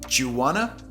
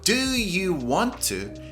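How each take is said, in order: First: The words are blended into a shortened form. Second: Every word is said fully and separately.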